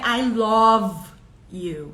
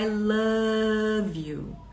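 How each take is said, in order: First: The vowel in 'love' sounds like 'oh'. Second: The vowel in 'love' sounds like 'ah'. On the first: The speaker calls it wrong. "não é I love you" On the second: The speaker calls it right. "esse O, ele é o mais A"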